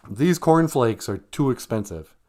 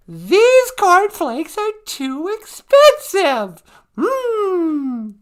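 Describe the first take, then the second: First: Said in the usual way. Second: High, loud, very slow whiny mock fury; hammed-up fake anger. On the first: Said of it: "Give me a line". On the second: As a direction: overact outrage at the price, drawing it out. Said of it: "Lights, camera, action".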